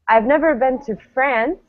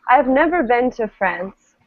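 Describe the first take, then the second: First: The stress is on France. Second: The stress is on never.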